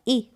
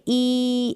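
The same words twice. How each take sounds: First: The vowel is kept short. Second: The vowel is held long. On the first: The speaker calls it right. "छोटा ही होगा" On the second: The speaker calls it wrong. "ऐसे नहीं होगा"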